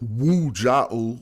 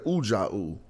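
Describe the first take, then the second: First: The word begins with a w consonant. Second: The word begins with an oo vowel. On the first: The speaker calls it wrong. "we don't say Wu Ja'u" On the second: The speaker calls it right. "We say Uja'u"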